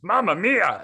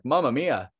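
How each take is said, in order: First: High, louder Italian cartoon voice; loud, high mock Italian cartoon guy; Italian character voice. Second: Said in the usual way. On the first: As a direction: ham up a spaghetti Italian. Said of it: "I'm doing it in a character voice too". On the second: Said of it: "I think he said, like".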